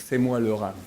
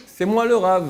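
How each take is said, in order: First: Said in the usual way. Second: Loud, high boast it is me; proud claim to be the rabbi; proud declaration. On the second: Shown as a demonstration. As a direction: announce yourself proudly. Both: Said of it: "on ne peut pas dire".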